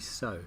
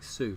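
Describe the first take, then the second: First: The vowel is 'oh', like 'so'. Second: The vowel is 'oo', like 'sue'. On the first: The speaker calls it right. "would actually be so" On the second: The speaker calls it wrong. "the Spanish accent there makes that interesting"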